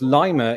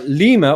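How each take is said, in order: First: It is said the local Ohio way. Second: It is not said the local Ohio way.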